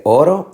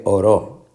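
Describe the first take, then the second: First: Oro with the O at the start stressed; stress on first syllable. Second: Oró with the final ó stressed; stress on last syllable. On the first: Teacher asking which syllable is stressed, first-syllable stress on oro. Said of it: "La fuerza de pronunciación está". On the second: Teacher offering the wrong option, last-syllable stress on oró. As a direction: push the stress onto the end: o-RÓ. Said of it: "en la última sílaba". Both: Shown as a demonstration.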